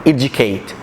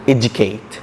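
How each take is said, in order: No difference in how they are said.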